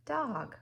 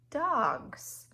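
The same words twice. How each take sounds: First: Said in the usual way. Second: "dogs" high and loud, the S stretched; stressed plural. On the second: Shown as a demonstration. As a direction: hit the S in "dogs". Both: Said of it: "two dogs".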